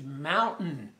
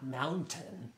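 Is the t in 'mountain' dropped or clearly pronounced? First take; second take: dropped; pronounced. First: The t in the middle is dropped. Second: The t in the middle is clearly pronounced. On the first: The speaker calls it right. "Blue Ridge Mountain" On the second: The speaker calls it wrong. "not mountain"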